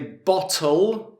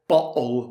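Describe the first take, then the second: First: The middle t is fully pronounced. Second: The middle t is a glottal stop. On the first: "we would say bottle" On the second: "with the glottal T"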